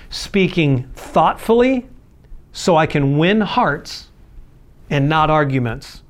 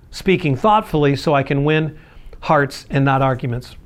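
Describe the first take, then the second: First: Slow emphatic. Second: Said in the usual way. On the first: Shown as a demonstration. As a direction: slowly weigh out "thoughtfully", "win hearts and not arguments". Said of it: "point stated then repeated". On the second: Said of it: "repeat of the point".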